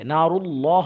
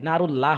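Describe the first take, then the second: First: The L is pronounced heavy and full. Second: The L is pronounced thin and light. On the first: The speaker calls it right. "নারুল্লাহ হবে" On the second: The speaker calls it wrong. "নারুল্লাহ হবে না"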